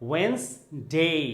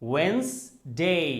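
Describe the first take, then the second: Both takes have the same delivery.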